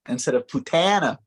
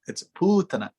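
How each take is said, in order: First: The second syllable is strongly stressed. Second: The second syllable is not stressed. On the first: The speaker calls it wrong. "instead of" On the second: The speaker calls it right.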